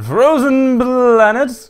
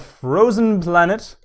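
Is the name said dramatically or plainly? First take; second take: dramatically; plainly. First: It is said in an exaggerated, dramatic voice. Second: It is said in a plain, ordinary voice. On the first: "I don't know why I always want to say it that way" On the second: "which I will refrain from saying dramatically"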